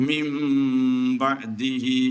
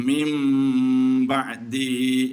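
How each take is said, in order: The two takes are said the same way.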